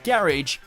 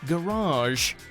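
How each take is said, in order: First: The word ends with a short, clipped syllable. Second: The word ends with a long ah vowel. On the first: "shortening the word" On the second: "with a long A at the end"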